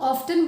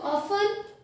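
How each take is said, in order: First: The word is said with a t sound. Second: The word is said without a t sound. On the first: "कई लोग ऑफ्टन बोलते" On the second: "इसमें टी silent होता है"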